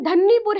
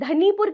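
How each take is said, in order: First: The n sound in the middle is long. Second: The n sound in the middle is short. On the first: The speaker calls it right. "इसका real pronunciation धन्नीपुर है" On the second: The speaker calls it wrong. "कुछ लोग इसे धनीपुर कहते हैं"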